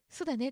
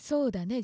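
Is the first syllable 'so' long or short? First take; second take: short; long. First: The first syllable 'so' is short. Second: The first syllable 'so' is long.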